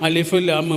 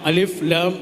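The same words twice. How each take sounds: No difference in how they are said.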